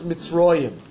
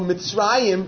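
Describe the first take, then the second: First: The middle vowel is a rounded oh sound. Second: The middle vowel is an open ah sound. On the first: The word comes at a break in the verse. "when Mitzrayim is the end of a pasuk ... becomes Mitzroyim" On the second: The word stands in the middle of a verse. "we usually pronounce it Mitzrayim"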